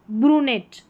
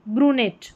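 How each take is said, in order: Both takes have the same delivery.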